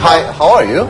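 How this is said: It is said in a British accent. "That's English English"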